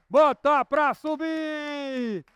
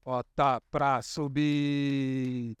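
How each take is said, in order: First: High, slow stretched chant with Bota stressed; roller coaster climb. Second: Low, very slow Bota pra subir. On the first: Pretend. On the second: Shown as a demonstration. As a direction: start the climb low and slow. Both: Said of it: "é só fazer o que eu faço".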